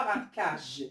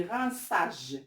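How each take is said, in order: First: "rinçage" misread with a hard K; wrong K sound. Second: "rinçage" with the C said as S; correct S sound. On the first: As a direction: say "rinçage" as "rinkage". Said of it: "On dit pas". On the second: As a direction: clear S in the middle of "rinçage". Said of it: "On dit rinçage". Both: Shown as a demonstration.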